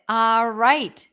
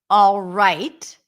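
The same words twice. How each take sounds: First: The L sound is dropped from the word. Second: A dark L sound is pronounced in the word. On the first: "Did not put the L there" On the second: "So I did create some tension, and that's the dark L"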